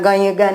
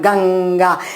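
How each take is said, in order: First: A y sound comes before the g. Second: A velar ng sound comes before the g. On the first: The speaker calls it wrong. "ગયગા નથી બોલતા" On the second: The speaker calls it right. "પણ ગંગા એમ બોલીએ છીએ"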